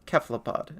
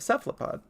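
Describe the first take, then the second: First: It is pronounced the original, non-American way. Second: It is pronounced the Americanized way. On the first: The speaker calls it right. "He says cephalopod" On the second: The speaker calls it wrong. "it's just been Americanized"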